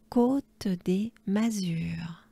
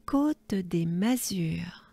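First: Côte des Mazures slowly and voiced; slow voiced repeat. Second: Côte des Mazures whispered slowly; slow French whisper. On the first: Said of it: "repeated slowly aloud". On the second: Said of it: "said slowly, whispered". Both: Shown as a demonstration.

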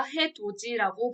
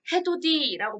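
First: 해돋이 said as 해도지, with a j sound; d turned to j in 해돋이; palatalized 해돋이. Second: 해돋이 said as 해도디, with a plain d; d kept before the i in 해돋이; unpalatalized 해돋이. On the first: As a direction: say 해돋이 as "hae-do-ji". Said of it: "발음한다". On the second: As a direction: say 해돋이 as "hae-do-di". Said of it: "발음 안 하고". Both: Shown as a demonstration.

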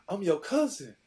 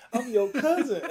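First: Higher, louder eager claim; excited fan. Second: Much higher and louder, laughing through it; laughing excited insistence. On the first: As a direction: blurt it out like a starstruck kid. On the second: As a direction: repeat it even more eagerly, laughing. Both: Retold or imitated. Teen telling NFL star he's family.

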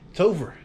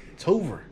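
The two takes are said the same way.

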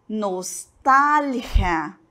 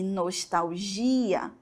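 First: Nostalgia very slow, stressed on TAL, throaty g; Spanish pronunciation. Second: Nostalgia the Portuguese way, stressed on GI; Portuguese pronunciation. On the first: Teacher shows the Spanish word, slow Nostalgia with stressed TAL. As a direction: say Nostalgia as nos-TAL-khia. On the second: Teacher gives the Portuguese counterpart, nostalgia with stressed GI. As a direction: say nostalgia as nos-tau-JI-a, slow and softer. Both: Shown as a demonstration. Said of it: "a sílaba tônica está onde?".

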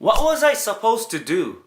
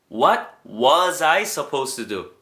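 First: Slow, higher, exasperated question; exasperated demo. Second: Said in the usual way. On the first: Shown as a demonstration. Teacher models the past-tense line, slow and exasperated. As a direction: ask it as if baffled. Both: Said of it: "am을 was로 바꿔주면 돼요".

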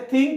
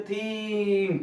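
First: Said in the usual way. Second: থিংক dragged out in pieces; long drawn vowel in থিংক, ending separated; wrongly broken-up word. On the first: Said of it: "থিংকই উচ্চারণ করতে হবে". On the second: Shown as a demonstration. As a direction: stretch থিংক as if breaking it apart. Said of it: "ভেঙে ভেঙে উচ্চারণ করতে হবে না".

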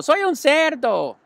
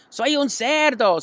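First: "un" lifted high, slow and loud; boy showing off. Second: "cerdo" stretched high and slow; boy showing off. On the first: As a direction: stress the little "un", sing it out. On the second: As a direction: play the pig, lean on "cerdo". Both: A narrator's reading. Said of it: "gritó Avery".

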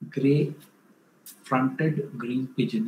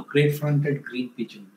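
First: Gray-fronted green pigeon spelled out slowly, word by word; slow, careful repeat of Gray-fronted green pigeon; slow clear naming. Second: Said in the usual way. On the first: Shown as a demonstration. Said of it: "uh, no, gray-fronted green pigeon". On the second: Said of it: "uh, no".

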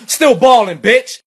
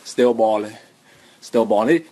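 First: High, loud rapper ad-lib; bragging rap ad-lib, loud and high. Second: Low, lazy mumbled drill ad-lib; deep, soft rapper mumble. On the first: Pretend. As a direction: hype it up like a drill rapper. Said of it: "I'ma [name] style stunt". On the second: Retold or imitated. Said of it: "I'ma [name] style stunt on y'all".

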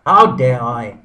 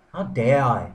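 First: A much louder, indignant repeat of how dare I; angry outburst. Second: Mild indignation. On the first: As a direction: burst out in mock fury at yourself. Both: Acted. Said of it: "Sorry, I'm getting a bit angry".

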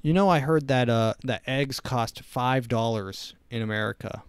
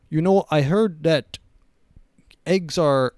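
First: Said in the usual way. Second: Louder, half-started mock Russian accent; a hammed-up Russian accent, dropped at once; Putin in Russian accent. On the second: Voicing the Russian leader on egg prices, abandoned mock Russian accent. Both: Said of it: "I'm not gonna do a Russian accent".

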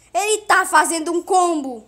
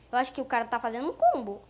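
First: Very loud, higher-pitched yell; alarmed shout. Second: Said in the usual way. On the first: Real, not acted. Gamer spots the rival's combo, alarmed loud shout. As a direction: shout every word at full volume.

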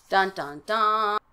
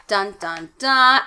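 First: Dramatic sting. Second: Louder mock cliffhanger "Dun, dun, dun" with a punched last "dun"; dramatic sting. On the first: Pretend. Host mocking a cliffhanger, dun dun dun spoken as a playful sting. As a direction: hum "Dun, dun, dun" like an ominous chord. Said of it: "And so now we". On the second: Host closing a chapter with a mock dun dun dun sting. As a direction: boom the final "dun" like a suspense chord. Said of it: "Out of the frying pan".

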